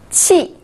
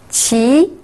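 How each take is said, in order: First: The pitch falls sharply from high. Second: The pitch rises from mid to high.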